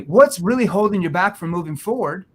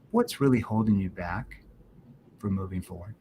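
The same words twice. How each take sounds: First: The voice sounds casual, without concern. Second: The voice sounds soft and concerned. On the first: The listener deflects and asks for time. The speaker calls it wrong. "In that tone" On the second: The listener feels cared about and opens up. The speaker calls it right. "notice how my tone shifted into a concern tone"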